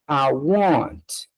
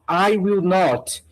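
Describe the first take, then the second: First: It is said as a short contracted form. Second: It is said as three full separate words.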